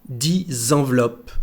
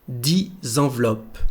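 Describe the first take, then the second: The two takes are said the same way.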